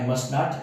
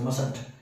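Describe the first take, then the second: First: It is said as two separate full words. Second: It is said as one contracted word.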